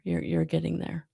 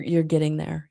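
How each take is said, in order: First: Soft whispered reassurance; gentle whisper, no voice. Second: Said in the usual way. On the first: Real, not acted. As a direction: breathe it like a secret encouragement. Encouraging the viewer.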